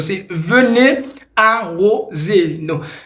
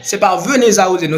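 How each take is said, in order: First: There is no link between venez and 'arroser'. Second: The z of venez is linked to 'arroser'. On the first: The speaker calls it right. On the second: The speaker calls it wrong. "c'est pas"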